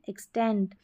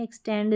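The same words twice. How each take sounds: First: एक्सटेंड ending in a crisp T sound, "eks-tent"; correct final T. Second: एक्सटेंड ending in a voiced D; wrong final D. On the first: Teacher correcting the last letter, एक्सटेंड with final T. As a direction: say एक्सटेंड with T in place of D. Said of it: "टी है last में". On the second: Teacher showing the mistake to avoid, एक्सटेंड with final D. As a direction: say एक्सटेंड as "eks-tend". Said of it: "टी है last में, एक्सटेंड नहीं है". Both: Shown as a demonstration.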